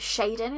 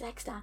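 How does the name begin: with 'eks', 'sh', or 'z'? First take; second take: sh; eks. First: The name begins with a 'sh' sound. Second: The name begins with the letter name 'eks'. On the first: It follows a Chinese or Japanese reading of the letter. "Chinese, Japanese kind of way of how you pronounce like that X A sound" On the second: It is a misreading made in one's head. "I was saying X-Dan in my head"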